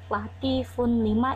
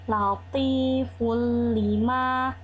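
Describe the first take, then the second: First: The n is pronounced separately before the l. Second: The n merges into the l without nasal sound. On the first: The speaker calls it wrong. "bukan latifun lima, itu salah" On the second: The speaker calls it right. "tapi latiful lima"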